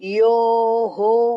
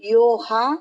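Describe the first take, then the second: First: The visarga is released with an 'o' vowel. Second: The visarga is released with an 'a' vowel. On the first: The speaker calls it right. "यो हो हो आएगा" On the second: The speaker calls it wrong. "यो हा बोलना नहीं यहाँ पे हा विसर्ग नहीं"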